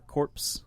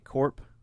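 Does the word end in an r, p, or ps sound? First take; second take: ps; p. First: The word ends in a ps sound. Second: The word ends in a p sound. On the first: "Or corpse. It's it's stupid" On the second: "they say corp"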